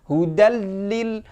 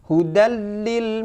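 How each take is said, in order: Both takes have the same delivery.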